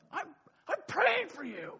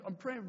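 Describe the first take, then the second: First: High, drawn-out mock protest; indignant protest. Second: Said in the usual way. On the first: Doused leaders to prankster kids, high indignant cry. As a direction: imitate a put-out wail, slow and high.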